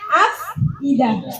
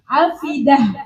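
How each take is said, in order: First: A glottal stop separates the f and the i. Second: The f runs straight into the i. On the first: This is the original form with the hamzah. "Yang asalnya" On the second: The hamzah's vowel moves to the letter before it and the hamzah is dropped. "hamzahnya nggak diperlukan, dibuang"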